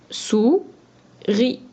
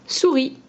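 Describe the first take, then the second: First: "Sou-ri" in two beats with a clear gap; split into syllables. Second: Said in the usual way. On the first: Shown as a demonstration. Teacher sounding out a word for pupils, "Sou-ri" split by syllable. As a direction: pause between "Sou" and "ri". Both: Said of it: "On enlève la première syllabe".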